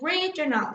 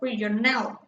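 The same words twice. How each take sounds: First: The stress is on the first syllable. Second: The stress falls on a later syllable. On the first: The speaker calls it right. "there's a tendency to the English language to stress uh, the first syllable" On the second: The speaker calls it wrong. "like we tend to do in, in the Spanish language"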